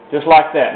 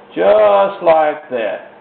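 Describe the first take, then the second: First: Said in the usual way. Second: "Just like that" drawn out very slowly; slow demo. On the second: Shown as a demonstration. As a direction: stretch out "Just like that" to show the stroke. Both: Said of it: "you see how that's done".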